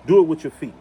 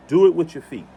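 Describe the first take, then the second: No difference in how they are said.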